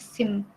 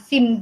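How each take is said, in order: First: The final m is softened with a slight trailing ending. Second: The final m is plain and hard. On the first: The speaker calls it right. "tapi kayak sim" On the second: The speaker calls it wrong. "bukan sim gitu"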